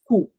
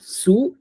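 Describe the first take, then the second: First: The word begins with a k sound. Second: The word begins with an s sound. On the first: The speaker calls it right. "it's ku" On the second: The speaker calls it wrong. "It's not su"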